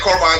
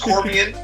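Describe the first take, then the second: First: The name ends with a 'bine' sound. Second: The name ends with a 'bee-an' sound. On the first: The speaker calls it wrong. "I keep saying Corbine" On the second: The speaker calls it right. "but it's Corbian"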